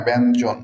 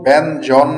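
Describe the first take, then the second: First: ব্যঞ্জন ending in a rounded jon; correct rounded vowel. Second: ব্যঞ্জন slow and loud, ending in open jawn; wrong open vowel. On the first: Teacher giving the corrected form, ব্যঞ্জন with rounded jon. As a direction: say ব্যঞ্জন as "ben-jon", falling at the end. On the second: Teacher rejecting a mispronunciation, ব্যঞ্জন slowly with open jawn. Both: Shown as a demonstration. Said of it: "ব্যঞ্জন নয়".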